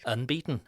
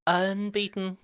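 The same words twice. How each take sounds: First: Said in the usual way. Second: Much higher, held long; drawn-out call. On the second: Pretend. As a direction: stretch out UNBEATEN on a high, level note. Repeats the word in drawn-out high voice.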